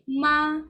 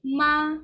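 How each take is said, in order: First: The pitch stays high and level throughout. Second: The pitch stays high and level throughout.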